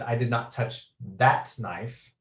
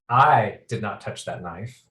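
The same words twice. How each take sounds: First: The word "that" carries the main stress. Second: The word "I" carries the main stress. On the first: A different knife was touched. "clearly you've touched some sort of knives, uh, but it's not that knife" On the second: Someone else did it. "I seem to be implying that someone else did"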